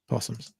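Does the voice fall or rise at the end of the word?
fall. The voice falls at the end, like a statement. It is a plain statement. The speaker calls it right.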